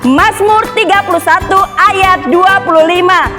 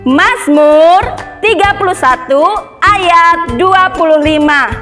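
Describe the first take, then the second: First: It is recited faster still, very quickly. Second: It is recited faster than the normal pace. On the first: "Lebih cepat lagi bisa?" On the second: "sekarang lebih cepat ya"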